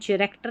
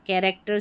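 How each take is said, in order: First: The word begins with a ch sound. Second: The word begins with a k sound. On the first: The speaker calls it wrong. "कैरेक्टर में चिरेक्टर नहीं पढ़ा" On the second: The speaker calls it right. "C H को क पढ़ा"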